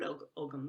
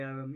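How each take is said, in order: First: "Ogham" with a hard G; "Og-, Ogham", the G fully pronounced; possible ancient pronunciation. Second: "ogham" with the G silent; modern Irish pronunciation. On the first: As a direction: say "Ogham" as OG-um, sounding the G. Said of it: "It might have been called". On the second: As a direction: say "ogham" as OH-um, no G sound. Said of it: "That's the modern Irish pronunciation". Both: Shown as a demonstration.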